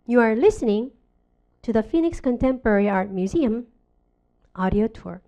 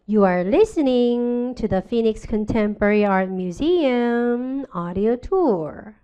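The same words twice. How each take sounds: First: The phrases are cut apart with breaks between them. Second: The phrases are stretched and linked without breaks. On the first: The speaker calls it wrong. "이렇게 끊는 게 아니야" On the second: The speaker calls it right. "그 사이가 엿가락처럼 길게 늘어져서 링크가 돼야 돼"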